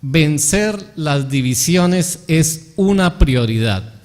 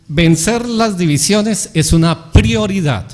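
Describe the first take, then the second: First: Very slow, word by word; slow dictation. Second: Loud, raised "vencer las divisiones", slowed down; emphatic key principle. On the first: Preacher repeats the principle for note-takers, slow dictation. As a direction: repeat it at half speed, spacing out "una prioridad". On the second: Preacher gives the principle to note down, emphatic. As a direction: announce it firmly, higher and louder, leaning on "prioridad". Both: Shown as a demonstration. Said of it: "lo apuntara".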